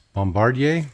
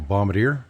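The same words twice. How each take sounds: First: It is said with a Quebec pronunciation. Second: It is said with a Western Canadian pronunciation. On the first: "in uh, Eastern Canada, and especially Quebec, it's bombardier" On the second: "Western Canada, everybody refers to it as a bombardier"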